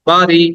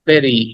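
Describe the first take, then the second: First: The first vowel sounds like 'ah'. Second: The first vowel sounds like 'eh'. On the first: The speaker calls it wrong. "অনেকে বলি বাড়ি" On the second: The speaker calls it right. "কিন্তু উচ্চারণটা হবে বেরি"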